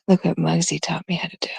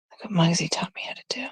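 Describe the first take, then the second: First: Said in the usual way. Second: Fast, hushed whisper; excited secret whisper. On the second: Real, not acted. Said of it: "Why am I whispering?".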